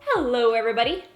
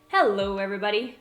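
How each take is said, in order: First: It is said in a higher pitch. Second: It is said in a lower pitch.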